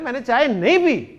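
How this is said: The word nahin gets strong emphasis. The speaker firmly denies an accusation of drinking tea. "यहां आप जोरदार अंदाज में बात करें"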